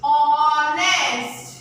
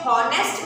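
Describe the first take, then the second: First: ऑनेस्ट drawn out slowly, starting on the open o, no h; ऑनेस्ट said slowly as the right version, h silent; correct silent h. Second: हॉनेस्ट with a sounded h at the start; हॉनेस्ट said as the mistaken version, h pronounced; wrong pronunciation with h. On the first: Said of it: "हम उसको कैसे pronounce करते हैं?". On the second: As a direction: say हॉनेस्ट voicing the h as a wrong example. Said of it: "पर जब भी हम इस स्पेलिंग बोलते हैं तो कैसे बोलते हैं?". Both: Shown as a demonstration.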